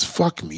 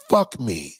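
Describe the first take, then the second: First: Said in the usual way. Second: Low, drawn-out fuck me; lightly voiced seductive woman; mock breathy come-on. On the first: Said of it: "their favorite fucking phrase".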